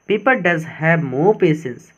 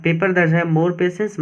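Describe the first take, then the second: First: Slow, deliberate dictation pace; teacher reading the quote slowly; slow reading aloud. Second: Said in the usual way. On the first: Shown as a demonstration. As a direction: read each word out slowly. Slow reading of English text.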